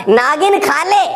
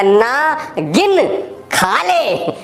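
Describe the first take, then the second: First: "नागिन खा ले" run together, pitched high; नागिन as one word. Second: Slow "ना... गिन... खा ले" with long pauses; split ना गिन. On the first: Husband teasing wife at the golgappa stall, नागिन run together. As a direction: say नागिन unbroken, like the word for snake. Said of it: "मैंने बोला नागिन खा ले". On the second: Husband backtracking to his wife, ना and गिन pulled apart. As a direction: break नागिन into ना and गिन, then stretch खा ले. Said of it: "बात का मायना बदल जाता है". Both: Acted.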